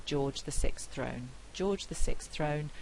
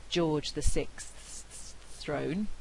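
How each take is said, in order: First: "George the sixth throne" run together with consonants dropped before "throne"; simplified cluster. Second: "George the sixth's throne" slowly, every consonant sounded before "throne"; hissing out each consonant of "sixth's", then a separate "throne"; full consonant cluster. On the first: Lecturer showing the easier everyday form, consonants elided. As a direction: glide from "sixth" into "throne" as one easy cluster. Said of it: "which is much easier to say". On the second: Lecturer showing the hard full form, slow and over-careful. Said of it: "we actually end up saying".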